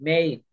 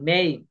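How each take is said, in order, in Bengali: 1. স্বরধ্বনিটি 'cake'-এর 'a'-এর মতো শোনায়। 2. স্বরধ্বনিটি 'cake'-এর 'a'-এর মতো শোনায়।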